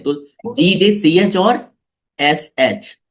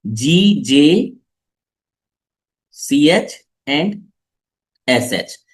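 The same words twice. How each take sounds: First: Said in the usual way. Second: "जीजे C H and S H" spelled very slowly, letter by letter; slow clear dictation. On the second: Shown as a demonstration. (धीरे-धीरे साफ़ अक्षर बोलना) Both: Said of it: "साफ साफ लिख देता हूं मैं".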